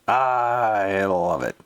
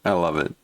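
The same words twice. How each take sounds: First: Drawn out slowly; savoring. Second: Said in the usual way. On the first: Real, not acted. Delighted reaction to the rant, slowly drawn out. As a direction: stretch every word out.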